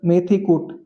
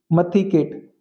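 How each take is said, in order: First: मेथी said with e as in "met", कूट with a long u; मेथी कूट, clearly. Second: मथी with a short a, केट with an e sound; मथी केट, clipped. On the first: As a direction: say मेथी कूट, the original food words. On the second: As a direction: shift मेथी कूट into मथी केट, park-name style. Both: Shown as a demonstration.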